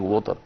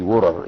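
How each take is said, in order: First: It is said without an American accent. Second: It is said with an American accent. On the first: "instead of saying" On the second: "like an American"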